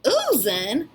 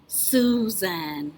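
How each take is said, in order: First: Questioning uzən without the s; first sound dropped. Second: Said in the usual way. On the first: Pretend. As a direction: say Susan as uzən, leaving off the s. Puppet missing first sound. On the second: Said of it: "start off with the name".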